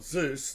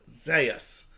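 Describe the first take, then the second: First: The name is said as one syllable. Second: The name is said as two syllables. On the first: "Although it's spelled Zeus" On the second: "they pronounce it Zeus. Z E U S. Zay, us"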